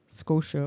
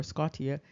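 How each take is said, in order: First: Scotia said as SKOH-sha; English pronunciation. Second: Scotia said as SKAH-tee-uh; Latin-style pronunciation. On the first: Showing listeners the translation, English pronunciation. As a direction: give Scotia two syllables with a sh in the middle. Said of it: "or Scotia". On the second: Offering the alternative for translation, Latin-style pronunciation. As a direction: pronounce the T in Scotia, then ee-uh. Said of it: "translation of Scotia". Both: Shown as a demonstration.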